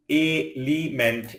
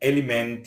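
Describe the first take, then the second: First: "element" pulled apart for learners; split syllables. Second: Said in the usual way. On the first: Shown as a demonstration. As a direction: pause between the syllables of "element". Word split by syllable, then whole.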